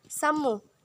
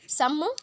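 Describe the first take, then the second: First: Calling the name again, falling at the end; a second call that drops and settles. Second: Calling the name from outside, rising at the end. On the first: Samruddhi calling her sister from outside, falling call. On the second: Samruddhi calling her sister from outside, rising call. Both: A narrator's reading. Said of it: "ಹೊರಗಡೆಯಿಂದಲೇ ಕೂಗಿಕೊಂಡು".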